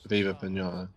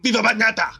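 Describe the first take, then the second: First: It is said flatly, without enthusiasm. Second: It is said with lively zest.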